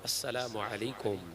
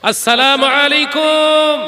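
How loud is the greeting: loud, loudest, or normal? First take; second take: normal; loud. First: The greeting is said at normal volume. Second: The greeting is said louder than normal.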